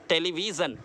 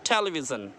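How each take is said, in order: First: The stress is not on the first syllable. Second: The stress is on the first syllable. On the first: The speaker calls it wrong. "Not television, गलत है" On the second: The speaker calls it right. "ठे पर stress है"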